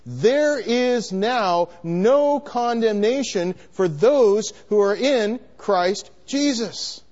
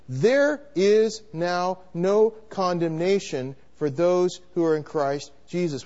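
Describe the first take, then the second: First: It is said louder, as a declaration. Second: It is said at a softer volume.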